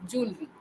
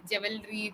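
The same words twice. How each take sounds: First: "jewelry" as two syllables, "JOOL-ree"; correct pronunciation. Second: "Jewelry" as "JEH-vel-ree"; usual mispronunciation. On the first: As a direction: say "jewelry" with no middle "e". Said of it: "the correct pronunciation is". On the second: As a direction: say "Jewelry" in three syllables with a v-like w. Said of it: "they'll say". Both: Shown as a demonstration.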